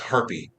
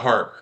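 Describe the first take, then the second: First: The name has two syllables, ending in an ee sound. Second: The name has one syllable, with no final vowel. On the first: "their last name might be s- pronounced Harpy" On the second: "instead of Harp"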